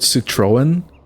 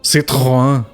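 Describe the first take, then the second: First: It is said with an American pronunciation. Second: It is said with the original French pronunciation. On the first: This is how Americans say it. "I've seen Americans call it" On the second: This is the intended pronunciation. "It's supposed to be pronounced"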